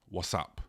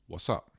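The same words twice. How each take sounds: First: It is said in a rude, sarcastic tone. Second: It is said in a friendly, genuine tone.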